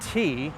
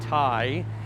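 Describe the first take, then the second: First: The word rhymes with 'tea'. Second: The word rhymes with 'tie'. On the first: The speaker calls it right. "It's actually pronounced tea, like the drink" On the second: The speaker calls it wrong. "for this you'd probably say Thai"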